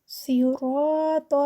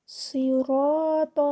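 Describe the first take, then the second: Both takes have the same delivery.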